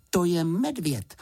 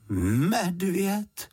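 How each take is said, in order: First: Said in the usual way. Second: High, drawn-out questioning "Medvěd?"; doubtful echo. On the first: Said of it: "odpověděla Juditka". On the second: A narrator's reading. Housekeeper repeats what Juditka told her, doubtful. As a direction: repeat "Medvěd?" as if unconvinced, stretching it. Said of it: "opakovala paní Ptáčková pochybovačně".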